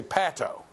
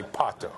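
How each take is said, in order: First: Pato with the short "a" of pat; mispronounced pato. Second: Pato said with an open "ah", as in father; pato with broad ah. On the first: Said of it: "be careful that you don't say". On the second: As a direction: say pato as PAH-toh. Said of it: "be able to say pato". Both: Shown as a demonstration.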